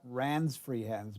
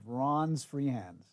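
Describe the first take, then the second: First: The name's vowel sounds like the vowel in 'ran'. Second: The name's vowel sounds like the vowel in 'Ron'. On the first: The speaker calls it wrong. "the proper pronunciation there is not" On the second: The speaker calls it right.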